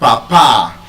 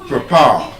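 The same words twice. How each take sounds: First: The first syllable has a full 'pa' vowel. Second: The first syllable has a weak schwa vowel. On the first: The speaker calls it wrong. "I did not say papa. I did not say pa, pa" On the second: The speaker calls it right. "It's er. The schwa sound"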